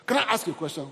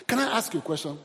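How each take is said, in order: Both takes have the same delivery.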